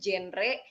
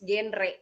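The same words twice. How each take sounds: First: It begins with a soft zh sound. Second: It begins with a hard g sound. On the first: The speaker calls it wrong. "Masih banyak banget orang yang nyebutinnya tuh genre" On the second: The speaker calls it right. "padahal it's genre ... Karena kan generasi berencana"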